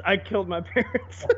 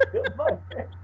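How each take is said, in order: First: Chuckling while saying it; breaking into a laugh mid-line; laughing through it. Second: Much higher and softer echo; squeaky echo. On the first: Friend jokes about a Skyrim hero, laughing. Mocking game dialogue, laughing. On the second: Friend repeats the joke in a much higher, softer squeak. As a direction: squeak it back, half under the breath. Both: Pretend.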